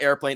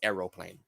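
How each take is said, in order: First: The word is said with two syllables. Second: The word is said with three syllables. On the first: The speaker calls it wrong. "it's not airplane" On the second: The speaker calls it right. "it's aeroplane"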